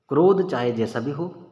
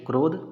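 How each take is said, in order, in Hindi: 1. ho से पहले कोई विराम नहीं है। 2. krodh के ठीक बाद विराम है।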